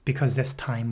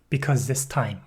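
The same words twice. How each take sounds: First: The words are said fast and slurred together. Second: The words are said clearly and separately.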